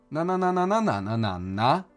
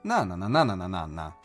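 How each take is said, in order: First: The melody stops high and sounds suspended. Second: The melody falls and comes to rest.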